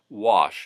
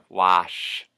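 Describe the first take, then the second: First: The vowel is the ordinary short vowel. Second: The vowel is a long, open 'ah'.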